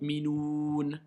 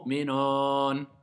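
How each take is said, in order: First: The last vowel is a closed oo sound. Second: The last vowel is an open o sound. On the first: The speaker calls it right. "c'est le mot minoun" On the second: The speaker calls it wrong.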